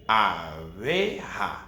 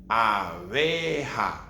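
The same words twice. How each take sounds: No difference in how they are said.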